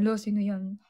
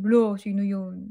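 First: Closer to her own voice, just a touch of teasing; mild playful question; lighter tease. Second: Slow, louder mock accusing tease; a light put-on jealous tease; teasing. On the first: Retold or imitated. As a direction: toss it off casually. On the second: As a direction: needle him playfully about the song. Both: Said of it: "asarin ko siya".

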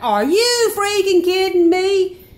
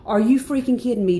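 First: High, loud, slow incredulous cry; stunned disbelief. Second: Said in the usual way. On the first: Retold or imitated. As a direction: drag it out in total disbelief. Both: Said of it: "I'm hearing it as he is".

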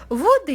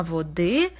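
First: "Води" stressed on the first syllable, VO-dy. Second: "води" stressed on the final syllable, vo-DY; stress on last syllable. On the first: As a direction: say "Води" as VÓ-dy, accent up front. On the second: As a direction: say "води" as vo-DÝ, accent at the end. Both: Shown as a demonstration. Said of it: "це наголос".

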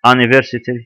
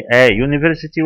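First: "university" begun with an open "ah" instead of "yoo"; نطق خاطئ. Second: "a university" with a clear "yoo" at the start of university; نطق صحيح. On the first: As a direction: ask it as "ah-niversity?", the wrong way. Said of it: "لو بنطقها آ تبقى متحركة". (نطق "university" غلط بصوت "آ" في الأول) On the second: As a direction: say "a university" as "ay YOO-niversity", slowly. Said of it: "بص هنا بقولها إيه". (نطق "a university" بصوت "يو" واضح في أول الكلمة) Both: Shown as a demonstration.

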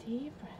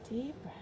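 Both takes have the same delivery.

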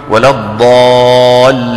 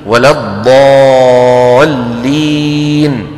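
First: Mock imam chanting الضالين with a long eh; ياء ممالة. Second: الضالين chanted very long with pure ee; الياء الخالصة. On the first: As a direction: imitate الضالين wrongly ending in 'ehn'. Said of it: "الإمام بيقول". (تقليد الإمام في إمالة ياء الضالين) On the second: Shown as a demonstration. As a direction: close the ي of الضالين to a clean ee. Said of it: "الياء العربية إي". (الضالين بياء خالصة ممدودة)

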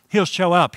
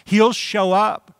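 First: Said in the usual way. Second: Excited. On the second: Real, not acted. Preacher exclaiming a promise.

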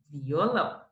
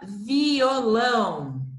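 First: Said in the usual way. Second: "violão" stretched syllable by syllable, very slowly; slow reading. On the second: Shown as a demonstration. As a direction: sound out vi-o-lão for the class. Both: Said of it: "E a última".

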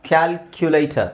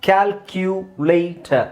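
First: Said in the usual way. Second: Calculator stretched slowly, syllable by syllable. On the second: Shown as a demonstration. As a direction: model Calculator slowly for learners. (Calculator ನಿಧಾನವಾಗಿ ಬಿಡಿಸಿ)

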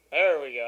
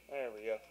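First: Relieved exclamation. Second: Said in the usual way. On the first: Real, not acted. Relief as game resumes.

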